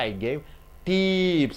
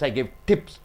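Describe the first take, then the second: First: The vowel in tips is drawn out long. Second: The vowel in tips is kept short. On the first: The speaker calls it wrong. "You don't say I gave tips" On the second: The speaker calls it right. "the A E I O U is less stressed"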